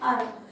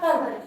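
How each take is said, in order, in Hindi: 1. शब्द की शुरुआत स्वर से होती है, h से नहीं। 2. शब्द की शुरुआत h की आवाज़ से होती है। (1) "अर्ब पढ़ना है" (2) "पर हर्ब नहीं पढ़ के अर्ब पढ़ना है"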